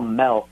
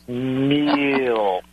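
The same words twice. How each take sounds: First: The vowel sounds like the e in 'bed'. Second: The vowel sounds like the i in 'bit'. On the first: The speaker calls it wrong. "that's what I used to call milk until you made me aware of how I said milk" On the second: The speaker calls it right. "I try to say milk"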